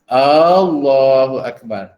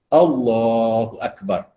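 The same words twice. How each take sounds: First: The opening vowel is drawn out long. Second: The opening vowel is said short. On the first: It asks whether God is the greatest. The speaker calls it wrong. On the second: It states that God is the greatest. The speaker calls it right. "a tu pendek ya"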